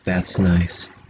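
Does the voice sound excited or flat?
flat. It is said flatly with no excitement. The speaker calls it right.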